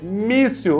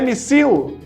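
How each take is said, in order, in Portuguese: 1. A tônica está na primeira sílaba. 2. A tônica está na última sílaba. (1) "é a penúltima sílaba forte" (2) "Mas é missil? Não"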